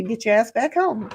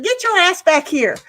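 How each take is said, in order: First: Said in the usual way. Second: High, loud playful yell; hollering at a friend to come back; mock yell. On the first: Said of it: "I was gonna tell you". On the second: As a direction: holler it like calling a kid home. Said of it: "It was like".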